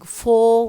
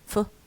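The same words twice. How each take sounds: First: The word is said in its full form. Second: The word is said in a reduced form. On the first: "Instead of saying for" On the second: "we have for"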